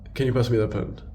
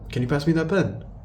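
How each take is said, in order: First: The pitch falls at the end. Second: The pitch rises at the end.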